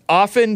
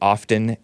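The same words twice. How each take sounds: First: The T sound in the word is silent. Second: The T sound in the word is pronounced. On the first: The speaker calls it right. "No, the T is silent" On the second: The speaker calls it wrong. "some people pronounce it"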